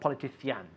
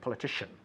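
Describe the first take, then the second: First: The ending is said without an sh sound. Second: The ending is said with an sh sound. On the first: The speaker calls it wrong. "Not politician" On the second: The speaker calls it right. "Shh, shh, shh. Titian, titian. ... Shin. Very good. Politician. Perfect"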